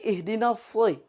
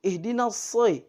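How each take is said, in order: Both takes have the same delivery.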